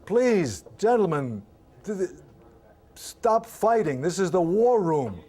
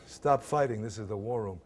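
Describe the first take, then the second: First: Higher and louder, slow, begging the men to stop; pleading mock shout. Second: Said in the usual way. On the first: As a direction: shout the plea to break up the fight. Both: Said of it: "one of the guys says".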